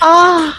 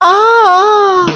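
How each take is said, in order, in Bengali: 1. এটি একটু রোমান্টিক ভাবে উচ্চারিত। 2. এটি খুব রোমান্টিক ভাবে উচ্চারিত। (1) "একটু রোমান্টিক হলেই এটা হয়" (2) "আর একটু রোমান্টিক হলে"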